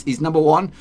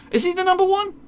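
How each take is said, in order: First: Said in the usual way. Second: Sudden doubting question, pitched way up; surprised question. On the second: Real, not acted. Doubting the stats to his viewers, a high surprised question. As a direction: squeak it up in disbelief.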